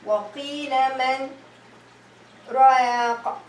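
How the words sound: There is a pause after the word man.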